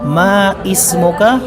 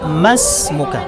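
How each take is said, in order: First: A separate 'i' syllable is sounded after 'ma'. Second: 'Ma' runs straight into 'smuka' without an 'i'. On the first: The speaker calls it wrong. "mais muka po ay mali" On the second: The speaker calls it right. "diretso lang po ang pagbigkas sa kanya"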